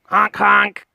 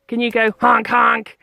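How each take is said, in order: First: Loud honk honk imitation; goose honks. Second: Said in the usual way. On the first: Shown as a demonstration.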